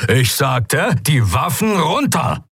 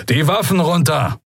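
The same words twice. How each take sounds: First: Slow, high, emphatic command; energetic order. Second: High-pitched firm command; commander's order. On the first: Commander repeats his ignored order to pirates, emphatic and drawn out. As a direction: repeat the order forcefully, drawing it out. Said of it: "klang ziemlich energisch". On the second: Young commander orders trapped pirates to disarm, firm high command. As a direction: order them firmly, pitch raised. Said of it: "befahl ein Weißmantel". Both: A narrator's reading.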